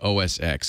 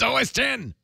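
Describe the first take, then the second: First: The last part is said as the letter X. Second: The last part is said as the number ten. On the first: The speaker calls it wrong. "keeps calling it O S X, and it's driving me crazy" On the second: The speaker calls it right. "It's O S ten"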